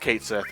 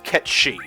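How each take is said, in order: First: The name sounds like 'Kate Sith', ending in 'th'. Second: The name sounds like 'ketchy', ending in 'ee'. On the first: The speaker calls it wrong. "I thought it was pronounced Kate Sith, but that's not correct" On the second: The speaker calls it right. "the name is pronounced Ketshi"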